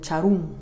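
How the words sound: The last syllable has a u vowel. This is how Quichua speakers say it. "ellos en cambio dicen"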